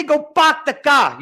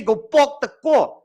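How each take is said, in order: First: "Go park the car." with open flat Joburg "a" in park and car; flat Joburg accent. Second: "Go park the car." with rounded Cape "o" vowels, pawk and caw; Cape Town accent. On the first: Teacher showing class how Joburg says "Go park the car.". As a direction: say it the flat Johannesburg way, a high demo. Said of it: "Joburg is flat". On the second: Teacher mimicking the Cape students' "Go park the car.". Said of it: "You guys say". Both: Shown as a demonstration.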